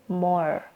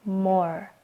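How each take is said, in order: Both takes have the same delivery.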